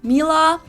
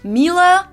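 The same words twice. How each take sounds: First: It is said with an English accent. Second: It is said with an English accent.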